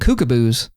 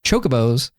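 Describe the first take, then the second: First: The word begins with a 'k' sound. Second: The word begins with a 'ch' sound. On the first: The speaker calls it wrong. "I just called them kookaboos" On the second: The speaker calls it right. "I mispronounced chocobos"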